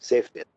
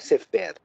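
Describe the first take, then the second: First: The stress is on the first syllable. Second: The stress is on the second syllable. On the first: The speaker calls it right. "é sefer" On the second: The speaker calls it wrong. "então não é sefer"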